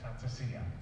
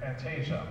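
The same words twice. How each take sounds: First: The word has no soft zh sound. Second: The word has a soft zh sound. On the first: The speaker calls it right. "it's fantasia, okay? Because it's an Italian word" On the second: The speaker calls it wrong. "we've been pronouncing that wrong all along"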